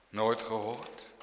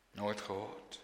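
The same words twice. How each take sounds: First: "Nooit gehoord?" asked softly with a rise; soft question. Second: "Nooit gehoord?" asked lower and far softer; hushed echo. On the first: Preacher asking listeners, softly. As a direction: ask "Nooit gehoord?" quietly, voiced. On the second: Preacher echoing his question, hushed. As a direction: let "Nooit gehoord?" fall to a hush. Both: Shown as a demonstration.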